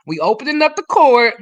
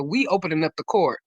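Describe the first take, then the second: First: Louder and higher, proclaiming it; loud announcement. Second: Said in the usual way. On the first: Real, not acted. Host opening court for the group, a loud proclamation. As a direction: call it out so the whole room hears.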